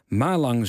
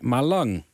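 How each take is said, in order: First: The stress is on the first syllable. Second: The stress is on the second syllable. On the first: "Malang zeg ik dus" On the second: "die klemtoon hoort op de tweede lettergreep"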